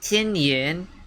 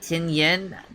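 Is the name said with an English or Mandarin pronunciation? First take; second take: Mandarin; English. First: The name is said with Mandarin sounds and tones. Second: The name is said with English-style sounds. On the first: "when I do the Mandarin" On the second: "that is more of an English pronunciation"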